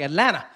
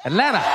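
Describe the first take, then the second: First: The t sounds fade and are nearly dropped. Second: The t sounds fade and are nearly dropped.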